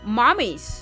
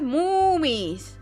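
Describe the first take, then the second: First: The first vowel sounds like in 'mom'. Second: The first vowel sounds like in 'moo'. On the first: The speaker calls it wrong. "It sounds like mommy, but I'm not trying to say mommy" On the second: The speaker calls it right. "You need to say it like moomies. Like like a cow"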